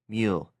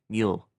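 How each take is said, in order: First: The vowel sounds like the 'ee' in 'meal'. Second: The vowel sounds like the 'oo' in 'mule'. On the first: The speaker calls it wrong. "Not the meal" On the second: The speaker calls it right. "the m- mule"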